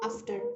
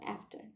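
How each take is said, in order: First: It is said in a Bengali/Indian accent. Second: It is said in an American accent.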